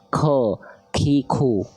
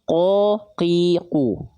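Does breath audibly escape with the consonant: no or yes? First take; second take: yes; no. First: The consonant is released with breath audibly escaping. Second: The consonant is released with no escaping breath. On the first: The speaker calls it wrong. "banyak orang melafalkan qaf itu bocor becek nafasnya" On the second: The speaker calls it right. "tepat melafalkan qaf dari pangkal dan nempel ke langit-langit dalam saja, yang lunak saja nggak akan keluar nafas"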